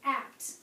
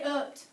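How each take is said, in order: First: The vowel is an open, spread 'a' sound. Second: The vowel is a short, central 'uh' sound. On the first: The speaker calls it right. "I said apt" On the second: The speaker calls it wrong. "I didn't say upt"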